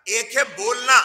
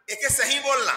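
First: Said in the usual way. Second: सही set apart and leaned on against बोलना; stress on सही. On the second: Shown as a demonstration. Preacher to congregation, contrasting सही बोलना with plain बोलना. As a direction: lean on सही to mark the contrast.

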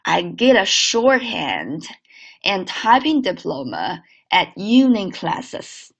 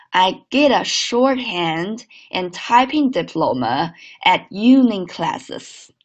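First: Slow linked read of I get a shorthand; teacher's slow model sentence. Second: Slow linked repeat; slow second model read. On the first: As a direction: read slowly, linking the words. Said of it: "整个句子连起来". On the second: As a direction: read it again slowly and linked. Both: Shown as a demonstration.

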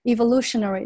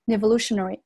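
First: Said in the usual way. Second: Evolutionary with a linking N in front, "nevolutionary"; linked N. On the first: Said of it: "一个辅音加一个元音". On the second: Shown as a demonstration. Teacher demonstrates liaison, evolutionary begun with N. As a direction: glue an N onto the start of evolutionary. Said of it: "那同样一个辅音加一个元音".

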